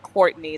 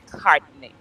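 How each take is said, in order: First: The name is said in the speaker's ordinary way. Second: The name is said with a West Indian accent. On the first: This is how the name owner says it. The speaker calls it right. "They don't say Courtney" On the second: Some men say the name this way. The speaker calls it wrong. "like guys that are from um some some like West Indies"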